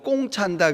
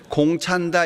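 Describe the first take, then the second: First: The first word starts with a tense k sound. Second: The first word starts with a plain k sound. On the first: "전라도 분들은 공을 꽁이라 그래요" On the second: "공 찬다 이래 안 하고"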